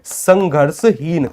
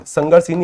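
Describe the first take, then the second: First: संघर्षहीन drawn out syllable by syllable, very slowly; teacher spells out संघर्षहीन slowly for the class; slow answer. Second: Said in the usual way. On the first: Shown as a demonstration. Teacher to students, slowly drawing out संघर्षहीन. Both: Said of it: "कैसा होता है?".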